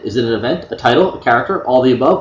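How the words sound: The question is read in a flat, unexcited way.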